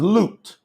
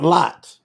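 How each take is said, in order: First: The vowel is a long 'oo' sound. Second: The vowel is a short open 'o' sound. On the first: The speaker calls it right. "His name is Lut" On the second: The speaker calls it wrong. "Lot is not Lot. That's a lie"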